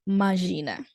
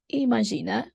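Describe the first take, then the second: First: The word is said in its casual spoken form. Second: The word is said in its full form. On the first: "people tend to say imagina. So that's how it's spoken" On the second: "the word is imagina"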